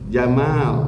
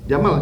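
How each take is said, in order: First: The vowel in the last syllable is long. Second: The vowel in the last syllable is short. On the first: It means handsome. The speaker calls it right. "ada panjangnya. Jamal, itu yang benar" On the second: It means camel. The speaker calls it wrong. "Kalau Jamal dibaca pendek artinya apa?"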